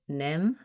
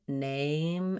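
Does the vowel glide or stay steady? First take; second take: steady; glides. First: The vowel stays short and steady without gliding. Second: The vowel glides and is held longer. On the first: The speaker calls it wrong. "you might just say nem" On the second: The speaker calls it right. "sliding name and holding that a longer time"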